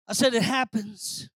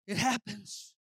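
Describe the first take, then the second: First: Louder, more emphatic restatement; insistent repeat. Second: Said in the usual way. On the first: Real, not acted. Preacher repeating that bitter waters come, firm insistence. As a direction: press it firmly on the listeners.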